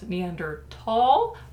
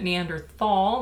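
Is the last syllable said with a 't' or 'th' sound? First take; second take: t; th. First: The last syllable has a hard 't' sound. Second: The last syllable has a soft 'th' sound. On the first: "There is a contingent of people who believe it's pronounced" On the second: "I'm pronouncing it Neanderthal. I just prefer the thal"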